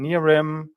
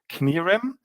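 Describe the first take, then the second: First: The initial K is silent. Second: The initial K is pronounced. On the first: This is the Americanized form of the name. "In English, you would um, say it without the K" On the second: This is the original German form of the name. "in Germany, you would pronounce it Knirim"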